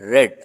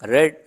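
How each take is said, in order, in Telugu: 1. అచ్చు హ్రస్వంగా ఉంది, 'red' లాగా. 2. అచ్చు హ్రస్వంగా ఉంది, 'red' లాగా.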